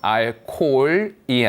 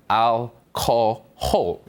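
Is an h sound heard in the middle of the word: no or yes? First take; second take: no; yes. First: It is said without an h sound. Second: It is said with an h sound. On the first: The speaker calls it wrong. "알코올이 아니라" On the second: The speaker calls it right. "히읗 발음을 해야 돼요"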